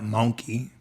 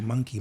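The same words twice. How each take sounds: First: The first vowel sounds like 'oh'. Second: The first vowel sounds like 'uh'. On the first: "not monkey" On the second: "you learned with a U"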